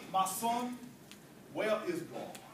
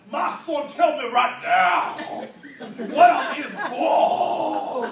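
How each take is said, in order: First: Low, soft, measured question; very patient. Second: Loud, slow booming demand, last words stretched long; commanding pastor. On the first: Pastor to a staring boy, very patient. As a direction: ask gently and patiently, dropping low. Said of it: "says very patiently". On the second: Pastor standing over the frightened boy, booming demand. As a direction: thunder it at the boy, drawing out each word. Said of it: "looks down on the young man and says". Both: Acted.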